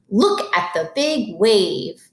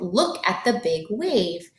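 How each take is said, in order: First: It is read with lots of excitement. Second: It is read plainly, without excitement.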